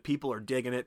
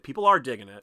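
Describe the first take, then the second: First: Said in the usual way. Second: "are" punched louder; emphatic ARE in the repeat; stress on ARE. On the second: Retold or imitated. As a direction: lean hard on the word "are" to insist. Quote repeated with contrasting stress.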